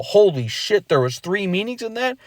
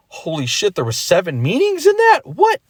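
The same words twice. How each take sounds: First: A higher, lightly amazed double take; mock amazement. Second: Climbing much higher into a stunned "What?"; hammed-up disbelief that builds to a shriek; big mock amazement. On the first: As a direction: act out a small discovery, light surprise. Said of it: "then you go".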